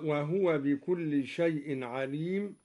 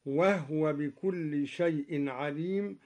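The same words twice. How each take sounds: First: وهو as wahuwa; standard recitation. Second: وهو as wahwa, ha made silent; Duri reading. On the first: Teacher reciting وهو as wahuwa. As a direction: sound the u on the ha of وهو. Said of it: "بإسكان الهاء من هو". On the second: Teacher showing students the silent ha of al-Duri. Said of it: "بإسكان الهاء من هو، هكذا". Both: Shown as a demonstration.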